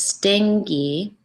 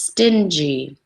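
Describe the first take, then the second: First: The middle consonant is a hard g sound. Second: The middle consonant is a soft j sound. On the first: The speaker calls it wrong. "we don't pronounce this stingy, right? It's not the word sting with a Y" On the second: The speaker calls it right. "It's stingy. J, j"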